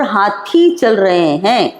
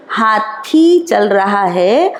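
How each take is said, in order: First: Slow, falling stress on रहे; plural spelt out. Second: Slow, stretched stress on रहा; singular spelt out. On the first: Teacher lets pupils hear the plural, slowly stressing रहे. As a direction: say हाथी चल रहे हैं word by word, long e in रहे. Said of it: "उससे पता चल जाएगा". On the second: Teacher contrasts one elephant with many, slowly stressing रहा. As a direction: say हाथी चल रहा है word by word, long aa in रहा. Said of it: "हाथी को हम हाथियों नहीं बोलेंगे". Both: Shown as a demonstration.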